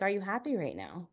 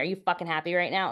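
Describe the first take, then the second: First: It is said gently, with no hostile attitude. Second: It is said with a hostile, aggressive attitude.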